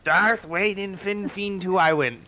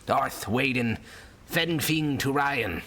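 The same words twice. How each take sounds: First: Higher, slower copy of "Fenfing"; imitating the sailor. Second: Put-on slow, gravelly old sailor. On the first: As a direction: parrot the sailor's strange words back. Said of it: "He looks at you, confused". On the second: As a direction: growl it like a weathered old seaman. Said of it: "gravelly old sailor voice".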